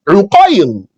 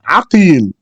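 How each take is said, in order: First: The name begins with a 'u' vowel. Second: The name begins with an 'a' vowel. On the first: "with a dhamma, u sound on the ayn" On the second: "with the fatha on the ayn"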